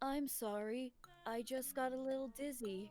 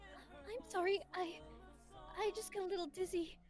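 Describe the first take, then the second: First: It is said in a flat, blunt way. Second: It is said in a soft, sweet way. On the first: This is how the character actually sounds. The speaker calls it wrong. "that kind of blunt" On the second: This is how the character was expected to sound. The speaker calls it right. "I kind of imagine her voice like"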